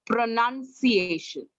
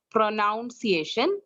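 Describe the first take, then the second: First: "pronunciation" slowly, second syllable like NUN; correct pronunciation. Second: "pronunciation" with a NOUN-like second syllable; wrong pronunciation. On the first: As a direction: model "pronunciation" as pro-NUN-ciation, drawn out. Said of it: "it's not pronunciation, beta, it's pronunciation". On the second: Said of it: "it's not pronunciation". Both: Shown as a demonstration.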